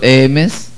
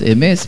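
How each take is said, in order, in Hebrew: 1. ההטעמה היא על ההברה הראשונה. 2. ההטעמה היא על ההברה האחרונה. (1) "ולא אמס" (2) "לפחות אמס מלרע"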